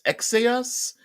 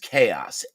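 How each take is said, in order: First: The word begins with a ks sound. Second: The word begins with a k sound. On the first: "it could be pronounced uh, X uh, X Aos" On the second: "what I pronounce as chaos"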